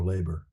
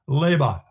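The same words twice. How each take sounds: First: It is said in a plain everyday accent. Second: It is said in a refined upper-class accent. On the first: This is the ordinary way to say it. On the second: This is how the speaker being described said it.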